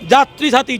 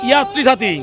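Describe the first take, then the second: First: The first word begins with a j sound. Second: The first word begins with a y sound. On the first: The speaker calls it right. "যে দিয়ে হবে" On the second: The speaker calls it wrong. "কেন ওয়াই দিয়ে উচ্চারণ তো আমাদের হয় না"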